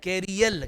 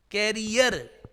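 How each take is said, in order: First: "कैरियल" with L replacing the final R; common mispronunciation. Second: "कैरियर" ending in a clear R; correct pronunciation. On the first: Retold or imitated. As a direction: imitate people saying "कैरियल", ending in L. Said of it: "तो लोग क्या बोलते हैं?". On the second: Shown as a demonstration. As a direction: say "कैरियर" with a final R, not L. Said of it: "कैरियर ही है".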